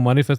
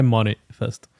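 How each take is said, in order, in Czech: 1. Vyslovuje se jako běžné slovo manifest. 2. Vyslovuje se jako 'money' a za ním 'fest'. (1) "Já myslím jako manifest" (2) "nemyslím festival peněz"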